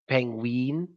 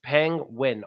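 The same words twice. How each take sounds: First: The first vowel is a long 'ee' sound. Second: The first vowel is a short 'ih' sound. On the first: The speaker calls it wrong. "they say E instead of I" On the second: The speaker calls it right. "it's just penguin"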